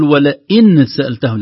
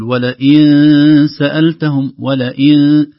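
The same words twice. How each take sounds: First: "ولئن" with the nun fully pronounced; wrong clear nun. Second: "ولئن" slow, with the nun hidden in nasal sound. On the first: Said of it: "لا نقول". (خطأ: إظهار النون) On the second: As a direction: let the nun of "ولئن" fade into ikhfa. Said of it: "النون غير واضحة". (إخفاء النون) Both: Shown as a demonstration.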